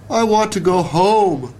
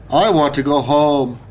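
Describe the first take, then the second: First: High, mock-wailing little bug; a storm-tossed bug wailing for home. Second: A touch of a louder woodpecker wail; understated cry of a muddy bird; mild wail. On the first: Termite tossed on the branch in the storm, wailing high. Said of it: "the bug wailed". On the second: Woodpecker caked in mud, mildly wailing for home. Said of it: "the bird wailed". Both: A narrator's reading.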